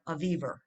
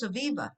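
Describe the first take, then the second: First: The name ends with an added R sound. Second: The name ends with a plain vowel sound. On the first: This is how a friend from New York said it. The speaker calls it wrong. "she added an R at the end of every word" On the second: This is the name's usual pronunciation. The speaker calls it right. "no, it's Aviva"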